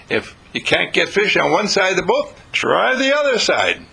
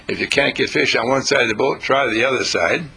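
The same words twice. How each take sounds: First: Confident. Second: A lower, unsure mock version of the advice, trailing; hesitant, doubtful. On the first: Retold or imitated. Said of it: "because Jesus doesn't talk like that". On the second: Shown as a demonstration. Preacher mocking a timid version of Jesus's advice, low and hesitant. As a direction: say it as if you're not sure it will work. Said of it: "Now, he didn't say".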